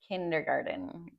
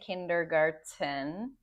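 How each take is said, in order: First: The middle consonant is a soft D sound. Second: The middle consonant is a clear T sound. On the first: The speaker calls it right. "we say that as a D" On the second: The speaker calls it wrong. "we don't say kindergarten"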